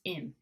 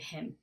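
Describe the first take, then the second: First: The word starts with a vowel, no h. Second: The word starts with a clear h sound.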